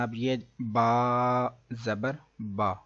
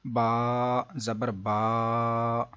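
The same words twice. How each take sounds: First: با read gently without stretching or jolting; the teacher's model of the right way; correct smooth reading. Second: با dragged out very slowly into a long "baa"; a deliberately wrong, drawn-out reading; wrongly stretched. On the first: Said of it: "یہ ہے درست طریقہ". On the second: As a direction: overstretch the vowel in با on purpose. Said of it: "یہ ہے لمبا". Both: Shown as a demonstration.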